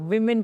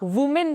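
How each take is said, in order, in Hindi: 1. पहला स्वर 'wi' जैसा सुनाई देता है। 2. पहला स्वर 'woo' जैसा सुनाई देता है। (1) "इसको विमेन पढ़ा जाता है" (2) "दिस इज रॉन्ग"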